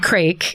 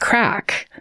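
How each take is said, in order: First: The vowel is long, rhyming with 'make'. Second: The vowel is short, rhyming with 'back'. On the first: The speaker calls it wrong. "I said crake because that's how it's spelled" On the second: The speaker calls it right. "It's crack"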